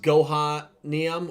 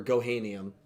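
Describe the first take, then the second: First: Gohanium with "HAH" in the middle, go-HAH-nium; "ha" pronunciation. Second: Gohanium with "HAY" in the middle, go-HAY-nium; "hay" pronunciation. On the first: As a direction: say Gohanium with an open "ah" as in father. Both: Shown as a demonstration. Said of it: "Is it pronounced".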